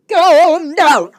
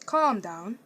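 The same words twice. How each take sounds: First: Loud, high calm down; exasperated loud echo; emphatic loud repeat. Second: Said in the usual way. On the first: Retold or imitated. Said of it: "I kid you not".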